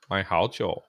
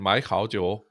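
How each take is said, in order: First: The first syllable keeps a low tone. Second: The first syllable has a rising tone. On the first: "it remains third tone" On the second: "you've bracketed these two together before you get this one"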